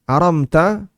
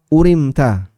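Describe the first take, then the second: First: The word begins with an 'a' vowel. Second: The word begins with a 'u' vowel. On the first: "dengan fathah hamzah dan sukun mim" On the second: "bi dhammil hamzah wa kasr ra"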